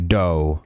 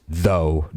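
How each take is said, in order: First: "dough" with a hard d in place of th; slangy "dough", th turned to d; slang pronunciation. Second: Said in the usual way. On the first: Shown as a demonstration. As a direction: say "dough" for though, starting on a hard d. Mocks slang pronunciation of though.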